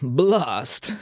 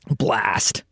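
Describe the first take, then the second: First: It is said in a put-on British accent. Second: It is said in the speaker's plain accent.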